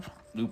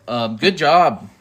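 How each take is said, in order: First: Burp cutting off words; words swallowed by a burp. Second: Said in the usual way. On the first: Real, not acted. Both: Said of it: "Oop, I burped".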